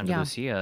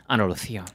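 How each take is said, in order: First: Said in the usual way. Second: "Andalusia" with a Spanish lisped th for the s; Castilian pronunciation. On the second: Shown as a demonstration. Correcting the place name to the host, Castilian pronunciation.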